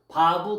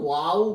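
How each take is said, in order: First: The word begins with a 'v' sound. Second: The word begins with a 'w' sound. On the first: This is the original pronunciation. The speaker calls it right. "원래 발음은 바부예요" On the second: This is the German-style pronunciation. The speaker calls it wrong. "독일어는 와우 개소법이라고 쓰고"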